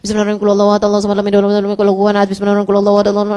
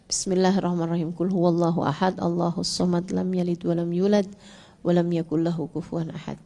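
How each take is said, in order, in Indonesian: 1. Bacaannya terburu-buru dan tidak jelas. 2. Bacaannya pelan dan jelas. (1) "Jangan sampai kamu bikin malaikat jadi bingung nyatetnya" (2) "Yang benar"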